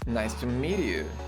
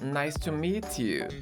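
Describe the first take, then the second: First: It is said in an American accent. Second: It is said in a British accent.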